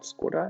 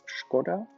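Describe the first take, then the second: First: The word begins with a plain s sound. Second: The word begins with an sh sound. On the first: The speaker calls it wrong. "not Skoda" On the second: The speaker calls it right. "it's Škoda"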